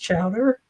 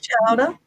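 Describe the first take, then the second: First: It is said with the local, non-Massachusetts accent. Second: It is said with a Massachusetts accent. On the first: This is how people say it where the speaker now is. "Down here" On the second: The speaker is from Massachusetts. "You gotta say it like that because I'm a Massachusetts person"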